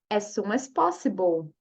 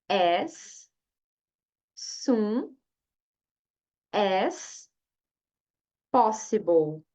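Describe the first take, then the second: First: The phrase is said at normal speed. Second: The phrase is said slowly. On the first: "Agora a frase inteira"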